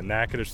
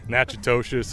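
First: The name is said the local way. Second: The name is said in an outsider's variant. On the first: This is the proper pronunciation. The speaker calls it right. "but yeah, Natchitoches, Louisiana" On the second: This is how outsiders often say it. The speaker calls it wrong. "You get so many different ones. People are like Natchitoches"

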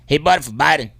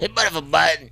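First: It is said in his normal accent. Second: It is said with a deeper Southern twang.

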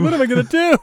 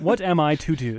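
First: It sounds despairing and worried. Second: It sounds formal and collected.

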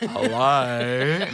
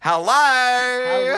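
First: It is said in a lower, deeper voice. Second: It is said in her usual higher voice.

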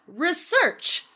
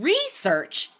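First: The stress is on the second syllable. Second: The stress is on the first syllable. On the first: It is a verb: to study something. "that is the verb" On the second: It is a noun: the study itself. "but research is the noun"

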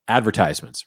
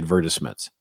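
First: It is pronounced the speaker's Texan way. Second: It is pronounced the standard English way. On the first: This is how the speaker naturally says it. "I say" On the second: This is not how the speaker says it. "I don't say"

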